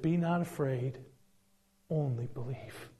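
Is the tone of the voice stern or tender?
tender. It is said in a soft, tender tone. The speaker calls it right. "I think he looked at him and tears in his eyes"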